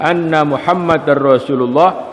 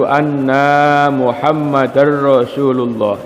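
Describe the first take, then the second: First: The vowel after the n is kept short. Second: The vowel after the n is drawn out long. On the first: It means 'indeed Muhammad'. The speaker calls it right. "sesungguhnya Nabi Muhammad Rasulullah" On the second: It changes the meaning to 'indeed we'. The speaker calls it wrong. "kalau membaca nunnya itu jangan dipanjangkan, karena saya sering mendengar itu dibaca"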